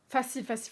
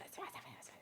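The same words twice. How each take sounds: First: Said in the usual way. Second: Facile, facile, facile breathed out in a bare whisper; sing-song facile dropping to a whisper. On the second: Real, not acted. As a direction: whisper the word facile three times, almost soundless. Repeats facile, then fades to whisper.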